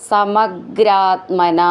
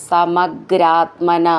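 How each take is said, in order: No difference in how they are said.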